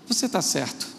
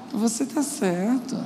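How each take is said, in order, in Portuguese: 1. É dito com um tom simples e sincero. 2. É dito com um tom debochado e sarcástico.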